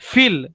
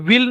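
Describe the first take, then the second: First: The word begins with an f sound. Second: The word begins with a v sound. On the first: The speaker calls it right. "विल के बजाय फील" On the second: The speaker calls it wrong. "विल नहीं प्रोनाउंसिएशन करने का"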